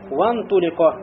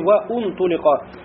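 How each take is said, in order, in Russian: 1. Слово идёт прямо от 'wa' к 'n'. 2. После 'wa' слышится добавочный гласный 'u'. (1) "то будет говориться уже «вантулико»" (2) "не говори «ваунтулико»"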